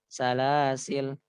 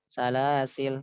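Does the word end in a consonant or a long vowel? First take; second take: consonant; consonant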